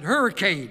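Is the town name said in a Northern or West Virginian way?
Northern. The name is said in a Northern Yankee way. The speaker calls it wrong. "that's the way Yankees pronounce it"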